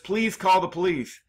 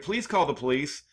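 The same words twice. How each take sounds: First: It is said urgently, like a panicked plea. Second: It is said calmly, like casual conversation.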